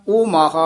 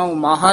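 First: "ਓ" as a long open o; full o sound in "ਓ ਮਾਹਾ"; open-mouth O. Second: "ਓ" closed to a short u; short closed u in place of "ਓ"; closed-mouth U. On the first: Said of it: "ਉਚਾਰਨ ਕਰਨਾ". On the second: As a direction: make "ਓ ਮਾਹਾ" sound like "umaha". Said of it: "ਬੰਦ ਮੂੰਹ ਵਾਲਾ ਊੜਾ ਨਹੀਂ". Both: Shown as a demonstration.

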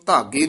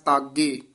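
First: ਧਾਗੇ with dhadha as first letter; mistaken consonant. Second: ਤਾਗੇ with a plain unaspirated t; t-initial pronunciation. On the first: Teacher showing the mistake, ਧਾਗੇ with dhadha. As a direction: begin ਧਾਗੇ on the dh letter, not t. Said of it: "ਇਸ ਨੂੰ ਧਾਗੇ ਨਹੀਂ ਕਹਿ ਦੇਣਾ". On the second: Teacher showing the correct reading, ਤਾਗੇ with tatta. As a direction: begin ਤਾਗੇ on a clean tatta. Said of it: "ਤੱਤੇ ਨਾਲ ਉਚਾਰਨ ਕਰਨਾ ਹੈ". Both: Shown as a demonstration.

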